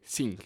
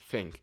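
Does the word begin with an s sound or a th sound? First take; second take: s sound; th sound. First: The word begins with an s sound. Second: The word begins with a th sound. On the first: The speaker calls it wrong. "lo más parecido es una S, zinc, zinc. Entonces la gente dice zinc" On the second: The speaker calls it right. "en vez de think"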